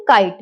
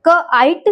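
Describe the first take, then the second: First: Said in the usual way. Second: क, आइट in two separate parts; sounded out. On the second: Shown as a demonstration. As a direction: break it into क and a long-I आइट. (क, आइट अलग-अलग करके) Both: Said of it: "long sound आई".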